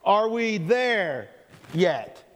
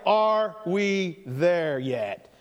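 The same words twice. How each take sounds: First: Put-on dragged-out kid whine; slow whiny drawl. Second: Each word drawn out slowly; slow title announcement. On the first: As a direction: stretch it out like a bored kid. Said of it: "the all-time classic". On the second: Acted. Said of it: "A conversation I'm calling".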